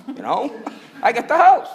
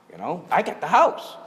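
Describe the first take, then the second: First: High, louder, laughing through it. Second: Said in the usual way. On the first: Retold or imitated. Finding his family gone, high louder laugh through the words. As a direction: laugh at the bitter joke of it. Finds his house emptied.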